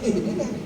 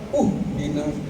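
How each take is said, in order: First: The word begins with an i vowel. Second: The word begins with an u vowel. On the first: The speaker calls it right. "harokatnya kasroh" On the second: The speaker calls it wrong. "itu salah lagi aja"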